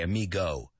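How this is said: The vowels have an American English quality. The speaker calls it right. "We say amigo. Why? Pues eso es como pronunciamos nuestra O"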